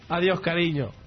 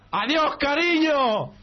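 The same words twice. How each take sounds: First: It is said at a moderate, softer volume. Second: It is shouted at the loudest volume.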